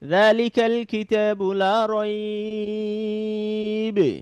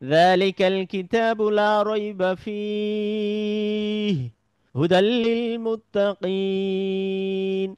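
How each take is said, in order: First: There is a pause right after raib. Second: There is a pause right after fih. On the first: "থেমে গেলাম।" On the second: "এই ফিহ বলে থেমে যেতে পারি"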